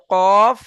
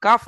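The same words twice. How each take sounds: First: কফ said long with a rounded "aw"; heavy qof. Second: কাফ said with an open "aa"; light "kaaf" for কাফ; wrong light kaf. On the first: Teacher correcting student, কফ as heavy, rounded "qawf". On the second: Teacher quoting student's slip, কাফ with open "aa". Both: Shown as a demonstration. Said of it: "কাফ নয়, কফ".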